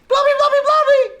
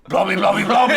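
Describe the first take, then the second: First: It is said in a very high-pitched voice. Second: It is said in a very low-pitched voice. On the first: "it's like way up" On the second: "and way down"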